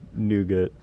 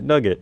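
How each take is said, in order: First: The first vowel is long, like 'noo'. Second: The first vowel is short, like 'nug'. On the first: This is how the speaker's own group says it. "we got like Nougat" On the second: This is how it is said in Scotland. "in Scotland they pronounce it Nugget"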